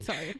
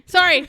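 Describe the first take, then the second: First: Said in the usual way. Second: Loud, high mock apology; joking, over-loud sorry; shouted apology. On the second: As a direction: blurt it out at full volume. Joking apology repeated much louder.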